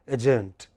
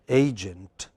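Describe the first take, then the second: First: The stress is on the second syllable. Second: The stress is on the first syllable. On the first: The speaker calls it wrong. "many of us by mistake pronounce it as agent. That's that's not correct" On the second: The speaker calls it right. "Which syllable is prominent? A"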